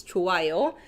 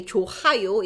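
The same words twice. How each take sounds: First: 좋아요 with the h nearly gone, like 조아요; weak ㅎ sound. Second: 좋아요 with a clearly voiced h between the vowels; marked ㅎ sound. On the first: Teacher shows the natural 좋아요 with a weak h. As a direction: let the ㅎ in 좋아요 fade between the vowels. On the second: Teacher shows the wrong 좋아요 with the h said. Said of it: "So we don't say". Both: Shown as a demonstration.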